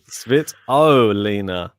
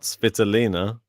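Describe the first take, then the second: First: The stress falls on the O syllable. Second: The stress falls away from the O syllable. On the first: The speaker calls it right. "You got to put emphasis on the O" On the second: The speaker calls it wrong.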